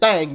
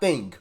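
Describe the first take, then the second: First: The vowel is 'a', so it sounds like thang. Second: The vowel is 'i', so it sounds like thing. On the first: "I said thing, A N G" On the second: "not I N G"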